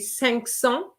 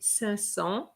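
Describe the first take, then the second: First: The final k sound of cinq is pronounced. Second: The final k sound of cinq is dropped. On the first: The speaker calls it wrong. "It's a bit hard to say cinq cents" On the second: The speaker calls it right. "So we just say cinq cents. So the Q is, is, is not pronounced"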